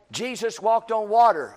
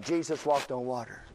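First: A touch of teacher announcing a Bible fact; matter-of-fact pulpit statement; preacher stating a fact. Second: Mumbled while writing. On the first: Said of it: "They're just gathering, you know, like". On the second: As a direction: lower and softer, repeating it to yourself. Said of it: "Okay, I'll, I'll write that down". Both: Retold or imitated.

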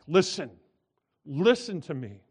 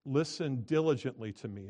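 First: Loud, urgent double call of Listen; emphatic. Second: Said in the usual way. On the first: Shown as a demonstration. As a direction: cry out Listen, listen with force. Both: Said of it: "it's even more emphatic".

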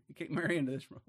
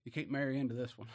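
First: Laughing. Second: Said in the usual way. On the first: Real, not acted. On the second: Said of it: "repeats with a laugh".

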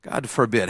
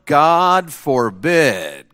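First: God forbid dropped to a soft, falling murmur; soft echo. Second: Each word drawn out slow and weighty; slow emphatic. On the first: Preacher repeating God forbid softly to himself. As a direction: let God forbid fall away quietly. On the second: Preacher reading God forbid slowly to chapel. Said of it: "Shall we continue in sin". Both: Shown as a demonstration.

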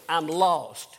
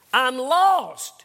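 First: Said in the usual way. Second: Louder, higher insistent repeat. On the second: Retold or imitated. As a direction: push it out, pleading to be understood.

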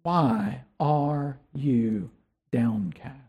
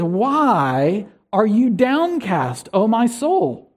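First: Softer, slower, turned inward; quiet inward question. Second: Slow, drawn-out reading of downcast; slow psalm quote. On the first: Pastor urging listeners to question their soul, soft and slow. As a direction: ask your own soul gently and quietly. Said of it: "Can you find out". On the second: Pastor quoting the psalmist's refrain, slow and drawn out. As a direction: let the psalmist's question stretch out slowly. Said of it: "Notice how the psalmist ... says". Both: Retold or imitated.

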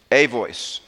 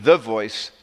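First: "a" stressed as a full "ay"; emphatic "a", set against "the". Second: "the" stressed before "voice"; emphatic "the" in "the voice". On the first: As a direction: lean on the article "a" in "a voice", pitched lower. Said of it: "a voice in the Greek". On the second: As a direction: lean on the article "the", said as a full, weighted word. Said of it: "not even the voice". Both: Shown as a demonstration.

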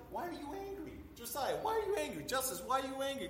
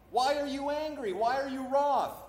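First: Soft, high-pitched gentle coaxing; parent asking child. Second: High, raised scripture questioning; God questioning Cain. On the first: Parent asks an angry little kid, soft high coaxing. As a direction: ask softly and high, as to a little one. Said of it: "one of your little kids, they get angry". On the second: God confronts an angry Cain, high emphatic questioning. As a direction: put the questions higher and louder, as God. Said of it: "the Lord said unto Cain". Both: Acted.

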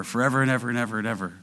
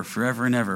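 First: Rapid piling repetition. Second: Said in the usual way. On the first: Shown as a demonstration. Building superlative emphasis.

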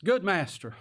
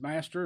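First: A touch of prim flattery on Good master; butter him up, all churchy and proper; Good master said with pious deference; mock proper, churchy. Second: Said in the usual way. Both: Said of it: "Oh, how proper and how churchy".

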